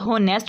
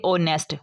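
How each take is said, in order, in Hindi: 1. इस शब्द की शुरुआत h की आवाज़ से होती है। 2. इस शब्द की शुरुआत एक स्वर की आवाज़ से होती है। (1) "इसको होनेस्ट नहीं पढ़ना" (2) "एच जो है वो साइलेंट कर देना"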